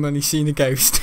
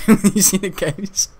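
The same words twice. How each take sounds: First: Said in the usual way. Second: Cracking up on the line; laughing repeat, a bit louder. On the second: Shown as a demonstration. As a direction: repeat the punchline through laughter.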